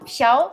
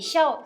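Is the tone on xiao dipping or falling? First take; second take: dipping; falling. First: It is said on a dipping tone. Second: It is said on a sharply falling tone. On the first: It means small. "ça veut dire petit" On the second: It means to laugh. "ça veut dire rigoler"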